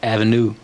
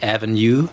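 First: No y sound comes before the final vowel. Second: A y sound comes before the final vowel. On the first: "Americans would say avenue without the yod" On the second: "they cling on to the yod, so they say avenue"

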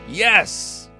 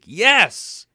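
First: It is said flatly, without enthusiasm. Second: It is said with strong enthusiasm.

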